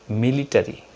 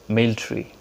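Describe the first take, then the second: First: It has the local, non-native pronunciation. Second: It has the native-speaker pronunciation. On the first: "we pronounce military" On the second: "the native speaker says military"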